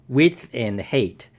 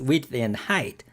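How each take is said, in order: First: The last word rhymes with ate. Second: The last word rhymes with kite. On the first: The speaker calls it wrong. "I always pronounce it width and hate" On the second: The speaker calls it right. "but now it's width and height"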